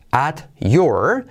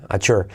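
First: "At your" slowly, T and Y kept apart; separate words. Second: "at your" run together as "achur"; fuse "at your" with a CH sound in the middle; linked T and Y. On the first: Teacher showing the unlinked "At your", carefully separated. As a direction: say "At your" as two distinct words. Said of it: "la T se une con la Y". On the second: Teacher showing how it links, "at your" as "achur". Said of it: "suena así". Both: Shown as a demonstration.

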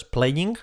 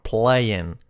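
First: "playing" with a sounded "ing", tight ee; wrong pronunciation. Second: "playing" ending as "play-en"; correct pronunciation. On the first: Teacher showing the error, mispronounced "playing". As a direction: mispronounce "playing" as "play-eeng". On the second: Teacher correcting learners, correct "playing". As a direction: relax the end of "playing" to "en". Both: Shown as a demonstration. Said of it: "no es playing".

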